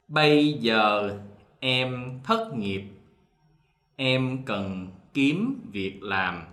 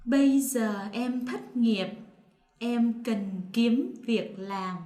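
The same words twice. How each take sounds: First: Slow southern reading, giờ said with a y sound; southern Vietnamese dialect. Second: Northern standard, giờ with a z sound; northern Vietnamese standard. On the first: Teacher reads sentence two in southern Vietnamese. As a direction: read it slowly in the southern accent. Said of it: "so one more time". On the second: Partner reads sentence two in northern Vietnamese. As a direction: say it the Hanoi way, separating final t and c. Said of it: "me will say it in the non-dialect". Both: Shown as a demonstration.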